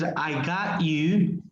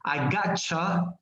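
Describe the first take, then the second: First: Got and you are said as separate words. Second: Got and you blend into one gotcha sound. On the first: "That's the normal, the, the way we read it" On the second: "it should sound like this"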